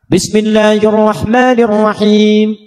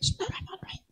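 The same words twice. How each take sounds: First: The phrase is recited loudly and clearly. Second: The phrase is recited softly and thinly. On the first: It is recited aloud in prayer. "dibaca keras" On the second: It is recited silently in prayer. "Sir, silent, tipis"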